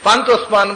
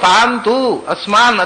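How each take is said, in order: First: It is run together as one word. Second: It is split into two separate words. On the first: The speaker calls it wrong. "ಒಂದೇ ಶಬ್ದ ಅಂತ ಓದಿಬಿಟ್ಟೆ" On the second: The speaker calls it right. "ಅದು ಬೇರೆ ಶಬ್ದ"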